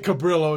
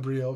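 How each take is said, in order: First: The name is said with an Anglicized local pronunciation. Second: The name is said with a Spanish pronunciation. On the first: This is how the locals say it. The speaker calls it wrong. "we say Cabrillo" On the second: This is how the name should be said. The speaker calls it right. "instead of Cabrillo"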